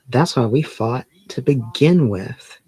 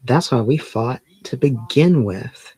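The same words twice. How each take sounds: First: It is acted with emotion, in character. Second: The same.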